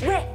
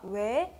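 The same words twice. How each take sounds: First: It sounds like a scolding refusal. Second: It sounds like a genuinely curious question.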